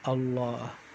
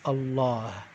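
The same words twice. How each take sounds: First: The stress falls on the last syllable. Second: The same.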